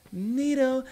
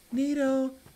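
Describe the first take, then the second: No difference in how they are said.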